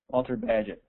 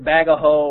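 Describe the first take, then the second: First: Two syllables, like badge followed by it. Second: Three syllables, ending in an open vowel. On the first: "Am I saying it right? ... there you go" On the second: "It's either Bagaho or Bagahot"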